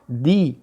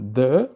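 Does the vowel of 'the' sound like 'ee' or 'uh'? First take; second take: ee; uh. First: The vowel is a long 'ee' sound. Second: The vowel is a short 'uh' sound. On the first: It is used before a vowel. "ou dito dessa forma" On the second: It is used before a consonant. "como se fosse um D e um A e um acento circunflexo"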